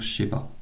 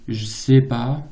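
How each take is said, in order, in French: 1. Les premiers mots se fondent et commencent par un son sh. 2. Les trois mots sont prononcés en entier, avec un son j. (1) "va devenir je sais pas" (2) "c'est le je sais pas"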